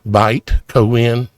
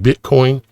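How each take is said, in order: First: The first syllable sounds like 'byte'. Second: The first syllable sounds like 'bit'.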